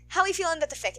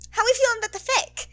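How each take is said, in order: First: Laughing question. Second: High playful question. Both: Real, not acted.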